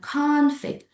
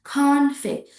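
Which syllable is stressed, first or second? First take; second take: first; first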